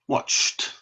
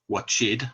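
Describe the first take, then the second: First: The ending is said as a short t. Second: The ending is said as an extra syllable. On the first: The speaker calls it right. "We pronounce it with just one sound" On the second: The speaker calls it wrong. "we don't pronounce it with two sounds. We don't say watched"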